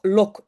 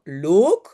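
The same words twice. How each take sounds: First: Short open o in "loc"; "loc" with a quick, open vowel. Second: Long closed o in "loc"; "loc" with its o stretched and closed. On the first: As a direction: say "loc" with a brief o as in French "sol". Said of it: "c'est o". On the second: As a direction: say "loc" with a held, rounded oh. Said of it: "on appelle ça un long o". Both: Shown as a demonstration.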